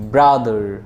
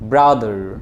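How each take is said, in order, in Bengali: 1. শেষের r উচ্চারণ করা হয়। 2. শেষের r উচ্চারণ করা হয়।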